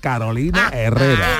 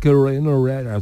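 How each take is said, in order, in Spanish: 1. El nombre se pronuncia con pronunciación española. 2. El nombre se pronuncia con pronunciación inglesa. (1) "se dice Carolina Herrera" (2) "no se dice Carolina Herrera"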